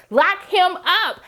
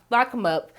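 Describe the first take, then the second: First: "Lock him up" drawn out slowly and pitched high; emphatic verdict. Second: Said in the usual way. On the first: Retold or imitated. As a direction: stretch each word of "Lock him up" in a high, outraged repeat. Repeats her verdict emphatically.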